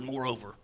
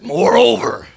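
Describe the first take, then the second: First: The word is said in a plain, ordinary way. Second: The word is said with strong, forceful energy. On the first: "I love that word" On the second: "I like to even say it like this, Just sounds powerful"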